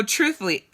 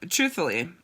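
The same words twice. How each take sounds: First: Truthfully said higher and punched, falling at the end; first take, the stressed one; emphatic truthfully. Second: Said in the usual way. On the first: Shown as a demonstration. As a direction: lean hard on truthfully.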